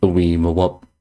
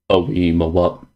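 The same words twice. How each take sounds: The two takes are said the same way.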